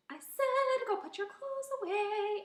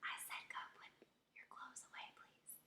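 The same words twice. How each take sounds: First: Loud, high sung order; singing. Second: Very soft, voiceless whisper. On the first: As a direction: sing the chore out playfully. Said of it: "sometimes I will sing". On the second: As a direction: whisper the order to the kids. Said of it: "or whisper". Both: Shown as a demonstration.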